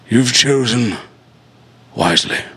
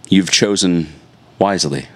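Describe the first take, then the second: First: It is said in a put-on character voice. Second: It is said in a normal speaking voice.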